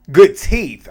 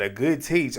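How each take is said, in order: First: "teeth" said clearly with a th, louder and higher; loud, high self-correction of "teeth". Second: "teach" said instead of "teeth", ending in a ch sound; "teach" with a ch at the end, a misspoken "teeth"; slip of the tongue. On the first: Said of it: "I don't know why I said teach". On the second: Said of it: "I don't know what I said there". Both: Real, not acted.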